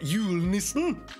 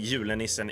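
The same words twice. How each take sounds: First: It is said with an imitated Norwegian pronunciation. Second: It is said with a plain Swedish pronunciation.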